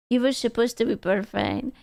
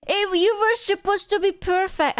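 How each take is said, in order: First: Quiet sad lament. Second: High, theatrical whine at the cup; whiny high lament. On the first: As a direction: murmur it like quiet heartbreak. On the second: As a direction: wail it like a betrayed child. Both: Acted.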